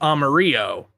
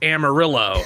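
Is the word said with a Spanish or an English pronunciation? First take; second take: Spanish; English. First: It is said with a Spanish pronunciation. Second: It is said with an American English pronunciation. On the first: It names the color yellow. "the color in Spanish is amarillo" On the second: It names the city in Texas. "but the city in Texas is Amarillo"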